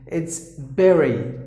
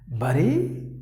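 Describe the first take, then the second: First: The first vowel sounds like the vowel in 'bed'. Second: The first vowel sounds like the vowel in 'bud'. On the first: The speaker calls it right. "instead of letter U, you got the letter E" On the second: The speaker calls it wrong. "we usually say it as buddy"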